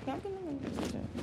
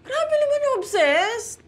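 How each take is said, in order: First: Soft mutter under her breath. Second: High, drawn-out protest; indignant. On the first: Jen denies being obsessed, quiet mutter. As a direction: grumble it to yourself. Repeats protest to herself. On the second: Jen denies being obsessed, high protest. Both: Real, not acted.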